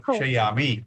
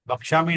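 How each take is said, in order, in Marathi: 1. मधला ya अक्षर उच्चारला जातो. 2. मधला ya अक्षर गाळला जातो. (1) "क्ष पूर्ण आहे ते" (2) "भक्षामी नाही"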